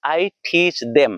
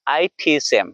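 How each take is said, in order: First: I teach them with the full them; slow Indian-style I teach them; local pronunciation. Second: I teach them with them as 'em; dropped th. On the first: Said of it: "बोलने के लिए क्या बोलूंगा?". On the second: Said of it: "दा को नहीं बोलूंगा, एम बोलूंगा". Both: Shown as a demonstration.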